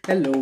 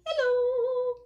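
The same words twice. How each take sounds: First: It is said in a low voice. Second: It is said in a high voice.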